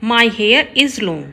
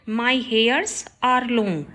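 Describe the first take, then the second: First: Slow, careful read of the corrected sentence; slow teacher dictation. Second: Slow, careful read of the wrong sentence; slow teacher dictation. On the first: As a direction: lay out each word clearly for the class. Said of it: "right होगा". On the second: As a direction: spell it out word by word for the class. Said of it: "wrong है sentence". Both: Shown as a demonstration.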